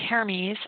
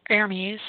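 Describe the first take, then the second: The two takes are said the same way.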